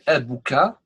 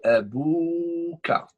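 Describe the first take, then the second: First: The vowel after the b is short. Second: The vowel after the b is long. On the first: The speaker calls it wrong. "We don't say" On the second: The speaker calls it right. "we should add Al Mid. ... we say"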